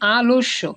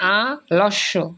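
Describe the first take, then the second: First: The l joins the first vowel, followed by o. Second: The word breaks apart after the first vowel. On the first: The speaker calls it right. "এই লটা কিন্তু ওর মতো হবে" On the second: The speaker calls it wrong. "আমরা কিন্তু ওই লটাকে স্বরের মতো বলি নাই"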